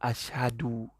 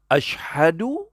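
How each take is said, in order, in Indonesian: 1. Kata ini tidak ada bunyi sh. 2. Kata ini jelas ada bunyi sh. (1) "Dia tak boleh sebut shim"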